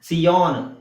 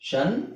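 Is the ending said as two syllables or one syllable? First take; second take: two syllables; one syllable. First: It is said as two separate syllables, see-on. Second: It is said as one syllable, shun. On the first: The speaker calls it wrong. "ಸಿ ಆನ್ ಅಂತ ಹೇಳೋ ಹಾಗಿಲ್ಲ" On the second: The speaker calls it right. "ಎಸ್ ಐ ಒ ಎನ್ ಗೆ ಎರಡು sound ಬರುತ್ತೆ. ಒಂದು ನಿಮಗೆ ಶನ್"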